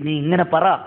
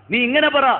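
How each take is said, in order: First: Said in the usual way. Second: Higher and louder insistence; emphatic repeat. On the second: Retold or imitated. Bilal urges the weeping woman to say it, higher and louder. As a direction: press the command on the repeat.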